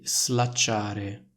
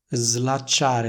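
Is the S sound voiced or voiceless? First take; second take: voiceless; voiced. First: The S is voiceless, like in sono. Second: The S is voiced, like a Z sound. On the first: The speaker calls it wrong. "pronunciano una S sorda" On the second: The speaker calls it right. "andrebbero pronunciate nel modo seguente"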